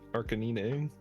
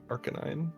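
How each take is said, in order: First: The name is said the way devoted fans say it. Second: The name is said the everyday, common way.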